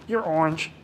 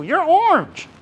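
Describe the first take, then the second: First: Said in the usual way. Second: High, louder teasing verdict; triumphant group ribbing; gleeful teasing. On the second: Retold or imitated. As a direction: rub it in with glee.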